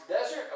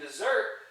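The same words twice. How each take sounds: First: Desert as DEZ-ert, first syllable stressed. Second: Dessert as di-ZERT, second syllable stressed. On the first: Teacher contrasting two nouns, desert stressed on the first syllable. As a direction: hit the opening of desert, the wasteland word. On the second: Teacher contrasting two nouns, dessert stressed on the second syllable. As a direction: punch the end of dessert loudly. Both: Shown as a demonstration. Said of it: "remember the difference between desert".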